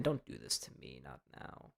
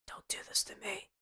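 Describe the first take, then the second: First: Low, very soft mock-despairing plea; hushed pleading. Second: High, soft, airy whisper; whispered plea. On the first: Host begs the frozen ESPN stream not to quit, hushed pleading. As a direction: sink to a low, fading murmur. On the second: Pretend. Host begs the frozen ESPN stream once more, whispered plea. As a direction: squeeze out a tiny whispered plea.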